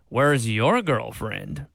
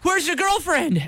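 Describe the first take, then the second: First: It sounds mocking and condescending. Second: It sounds anxious and worried about her.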